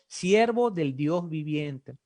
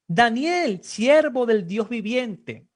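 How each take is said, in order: First: "Siervo del Dios viviente" spelled out slowly, each word weighted; slow emphatic answer. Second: Calling out loudly, slowed on the last words; king's cry. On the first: Shown as a demonstration. Preacher answering his own question to the congregation, slow and weighty. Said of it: "Daniel es, ¿qué?". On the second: Acted. King calling down into the lions' den, loud and slow. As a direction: cry out the servant's name to the pit. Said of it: "gritó".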